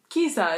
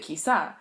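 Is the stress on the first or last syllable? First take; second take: first; last. First: The stress is on the first syllable. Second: The stress is on the last syllable. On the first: The speaker calls it wrong. "that's what I said, isn't it? No, no, no" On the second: The speaker calls it right. "an accent on the on the A, which makes it Kisa"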